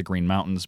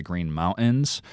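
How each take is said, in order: First: Said in the usual way. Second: MOUNTAINS with the T dropped, "moun'ins"; exaggerated glottal stop. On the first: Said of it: "are not the Green Mountains". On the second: Shown as a demonstration. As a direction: overdo the throat catch in MOUNTAINS, no T. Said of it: "that's just me exaggerating".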